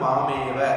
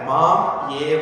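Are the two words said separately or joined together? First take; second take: joined; separately. First: The two words are joined into one. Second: The two words are said separately.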